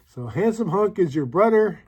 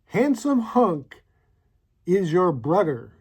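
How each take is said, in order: First: Said in the usual way. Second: Reading the card out. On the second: Shown as a demonstration. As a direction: savour each word of "Handsome hunk is your brother" as you read it off the card. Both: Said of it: "It says".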